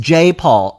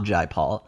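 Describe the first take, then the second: First: The first name sounds like the letter J. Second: The first name rhymes with the word eye. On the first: The speaker calls it right. "it's [name], not [name]" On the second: The speaker calls it wrong. "not Jai Paul. I originally thought it was Jai Paul"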